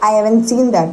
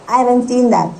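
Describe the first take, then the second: Both takes have the same delivery.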